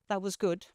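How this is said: It is said in a flat, neutral tone. "the relatively neutral statement"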